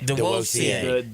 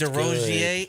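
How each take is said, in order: First: The middle consonant is a W sound. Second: The middle consonant is a clear R sound. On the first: The speaker calls it right. "that R sounds like a W" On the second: The speaker calls it wrong. "am I pronouncing his name right?"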